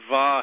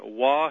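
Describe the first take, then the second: First: The letter name begins with a V sound. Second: The letter name begins with a W sound. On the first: "Some people pronounce the Wah, V, they'll say" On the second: "I contend that it's"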